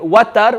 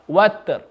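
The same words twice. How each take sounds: First: A short vowel is heard after the t. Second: The t goes straight into the r. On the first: The speaker calls it wrong. "We're given the ta zabar" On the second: The speaker calls it right. "Make sure the ta has a sukoon and you just make the sound of the ra"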